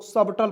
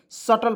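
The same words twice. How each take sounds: First: सबटल with a clear B before T; common mispronunciation, B sounded. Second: सटल with no B before T; silent B. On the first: Teacher shows how many people misread it, सबटल with B sounded. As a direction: pronounce the B inside सबटल. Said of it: "बहुत लोग सबटल पढ़". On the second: Teacher corrects the common reading to सटल with silent B. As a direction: skip straight to the T in सटल. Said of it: "नहीं, सटल पढ़ते हैं". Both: Shown as a demonstration.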